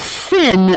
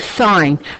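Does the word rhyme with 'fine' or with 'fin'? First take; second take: fin; fine. First: The vowel is short, like in 'fin'. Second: The vowel is long, like in 'fine'. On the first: The speaker calls it wrong. "we don't say the sin of an angle" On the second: The speaker calls it right. "we say sine"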